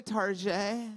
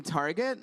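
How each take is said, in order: First: "Target" said as tar-ZHAY; French pronunciation. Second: Said in the usual way. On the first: Retold or imitated. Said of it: "in a French accent". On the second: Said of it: "if you pronounce it in a French accent".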